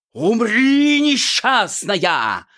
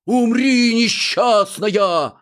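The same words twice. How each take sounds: First: High, loud, slow hammed-up villain cry; loud overdone villain shout; fierce shout. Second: High, loud, slow mock shout; loud mocking heckle from the audience. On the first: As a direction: roar the threat, dragging the last word. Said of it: "свирепо крикнул жених". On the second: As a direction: yell it from the hall, dragging it out. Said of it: "кто-то крикнул в зале".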